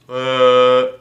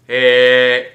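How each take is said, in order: First: The sound is dark and held back in the mouth. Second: The sound is bright and pushed forward along the palate. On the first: The speaker calls it wrong. "under the pencil sounds like this" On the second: The speaker calls it right. "over sounds like this"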